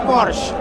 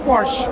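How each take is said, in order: First: It is pronounced the British way. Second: It is pronounced the American way. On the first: "orang Inggris ngomongnya Porsche" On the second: "orang Amerika bilangnya Porsche"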